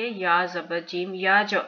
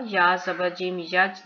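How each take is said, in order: First: याज with the final j released in a short echo; qalqala bounce. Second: याज ending on a closed, unbounced j; no qalqala. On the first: Teacher showing the correct reading, याज with a rebounding j. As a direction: bounce off the j of याज into a tiny vowel. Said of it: "इसके ऊपर कलकला होगा". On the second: Teacher showing what not to read, याज with a dead final j. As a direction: stop on the j of याज without echo. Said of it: "नहीं पढ़ेंगे". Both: Shown as a demonstration.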